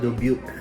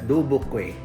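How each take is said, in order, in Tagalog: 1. Binibigkas ito sa lokal na pagbigkas na Amerikano. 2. Binibigkas ito sa ibang estilong Pilipino. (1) "Pero ito" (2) "O kaya"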